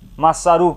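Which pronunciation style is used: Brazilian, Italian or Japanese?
Japanese. The name is said in a Japanese way. "No Japão"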